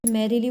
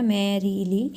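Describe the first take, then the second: First: Said in the usual way. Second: "मैरीली" in three parts, ending on a rise; syllable by syllable. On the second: Shown as a demonstration. Teacher demonstrating a three-syllable foot, each part separate. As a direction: divide "मैरीली" into मै, री, ली. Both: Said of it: "three words में इसको divide किया गया है".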